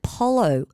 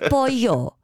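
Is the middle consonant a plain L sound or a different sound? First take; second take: L sound; different sound. First: The middle consonant is a plain L sound. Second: The middle consonant is not a plain L. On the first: The speaker calls it wrong. "She called it polo, like as in the Apollo" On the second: The speaker calls it right. "It's pollo"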